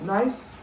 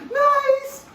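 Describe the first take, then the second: First: The word is said in a flat, normal tone. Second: The word is said with lively, excited inflection. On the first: The dog keeps doing its business undisturbed. The speaker calls it right. "in a normal tone of voice" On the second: The dog hears excitement and stops to come over. The speaker calls it wrong. "They hear inflection, so don't say nice"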